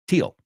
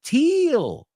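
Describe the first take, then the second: First: The vowel is short and quick. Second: The vowel is drawn out long. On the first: The speaker calls it right. "So it's a quick sound" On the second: The speaker calls it wrong. "It's not teal"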